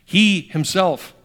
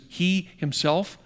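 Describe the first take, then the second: First: He himself slow and louder; emphasis on He himself. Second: He himself drawn out slowly; emphasis on He himself. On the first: Pastor reading the verse with the emphasis, slow and louder. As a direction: punch He himself, slow and strong. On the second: Pastor pointing out Peter's emphasis, drawn out slowly. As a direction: stretch out He himself, slow and deliberate. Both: Shown as a demonstration. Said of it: "that's called an emphasis".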